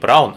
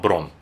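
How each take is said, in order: First: The name has a gliding 'ow' vowel. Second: The name has a single 'o' vowel. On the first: The speaker calls it wrong. "говорит не Браун" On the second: The speaker calls it right. "правильно, кстати, говорит ... а Брон"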